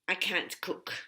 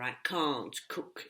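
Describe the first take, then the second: First: It is said in an American accent. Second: It is said in a British accent.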